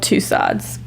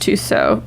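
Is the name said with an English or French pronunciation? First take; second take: English; French. First: It is read out as an English spelling. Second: It is said with a French pronunciation. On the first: "it's spelled Tussauds" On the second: "it's pronounced Tussauds, supposedly, in, in French"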